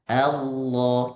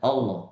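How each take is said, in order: First: The 'a' vowel is wide open and clear. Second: The 'a' vowel is narrow and less open. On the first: The speaker calls it right. "a lebih maftuha, a lebih terbuka, artikulasinya lebih jelas" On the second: The speaker calls it wrong.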